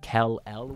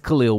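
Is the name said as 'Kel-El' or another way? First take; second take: Kel-El; another way. First: The name sounds like 'Kel-El'. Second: The name does not sound like 'Kel-El'. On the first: The speaker calls it wrong. "for a while I was pronouncing it Kel-El" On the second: The speaker calls it right. "it's Khalil Ware"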